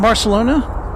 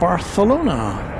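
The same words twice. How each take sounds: First: The c is said as an s sound. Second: The c is said as a th sound. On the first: "I'll say it the regular way" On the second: "They have that kind of a lisp associated with the T H sound"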